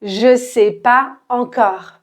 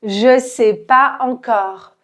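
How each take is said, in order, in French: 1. Je et sais se prononcent en deux syllabes séparées. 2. Je et sais se prononcent en deux syllabes séparées.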